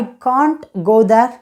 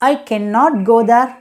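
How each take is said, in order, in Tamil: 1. cannot என்ற சொல் can't ஆகச் சுருக்கப்படுகிறது. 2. cannot என்ற சொல் முழுமையாகச் சொல்லப்படுகிறது.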